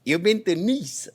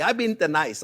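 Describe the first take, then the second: First: "Nice" said the French way, like "neece", slowly; slow down and give "Nice" the long French ee, "neece". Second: Nice said like the English word "nice", rhyming with rice. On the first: Shown as a demonstration. Chef correcting friends, saying Nice the French way, slowly. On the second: Retold or imitated. A visitor claiming the trip, saying Nice like the word nice. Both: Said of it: "That's how they say, not nice".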